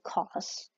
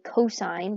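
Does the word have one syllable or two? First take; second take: one; two. First: The word is cut short to one syllable. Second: The word is said in two full syllables. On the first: The speaker calls it wrong. "don't say cos" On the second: The speaker calls it right. "we say cosine"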